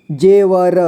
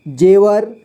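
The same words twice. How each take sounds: First: जेवर split as जे, व, र; syllable by syllable. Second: Said in the usual way. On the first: Shown as a demonstration. Teacher showing learners जेवर, sounded out in parts. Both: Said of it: "इसे पढ़ेंगे".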